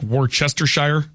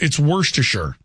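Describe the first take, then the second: First: "Worcestershire" as war-CHESTER-shire; "Worcestershire" with every written syllable sounded; spelling pronunciation. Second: "Worcestershire" as WURSH-tuh-shur; "Worcestershire" shortened, ending shur; correct pronunciation. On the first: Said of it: "sauce that looks like Worcestershire". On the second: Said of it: "That's how it's pronounced". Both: Shown as a demonstration.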